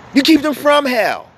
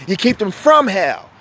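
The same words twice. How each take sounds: First: "keep" hit high and hard; stress on keep. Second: "from" weighted, at usual pitch; stress on from. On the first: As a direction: punch the word "keep" higher. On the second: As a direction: lean on "from", level and even. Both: Real, not acted.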